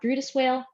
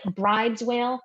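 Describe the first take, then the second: First: The name sounds like 'Brutus', two syllables. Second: The name sounds like 'bride's', one syllable. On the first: This is how people actually say it. The speaker calls it right. "but we say it differently" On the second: This is how the spelling looks. The speaker calls it wrong. "It looks like bride's whale"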